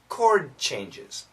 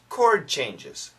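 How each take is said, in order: First: The D in 'chord' is very weak. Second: The same.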